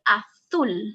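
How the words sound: The 'z' is said like a TH sound. This is how it is said in Spain. "In Spain, you will say"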